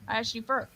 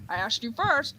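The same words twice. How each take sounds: First: Softer, fading echo of a retort. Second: Lightly indignant call, first take; calling for an echo. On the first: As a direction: repeat it back quietly. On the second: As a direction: answer the echo back. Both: Acted. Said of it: "the Echo scene".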